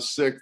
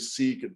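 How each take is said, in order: First: The vowel is short, like in 'sick'. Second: The vowel is long, like in 'seek'. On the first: The speaker calls it right. "the same way we would say, you know, I got sick" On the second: The speaker calls it wrong. "a lot of people would say Sikh"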